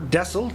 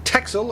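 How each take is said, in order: First: The name is said the Dutch way. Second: The name is said the English way. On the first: "The Dutch, I believe, pronounce it as Dessel" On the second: "depending on where you're from in the world"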